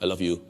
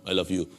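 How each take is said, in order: The two takes are said the same way.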